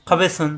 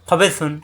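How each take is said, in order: The two takes are said the same way.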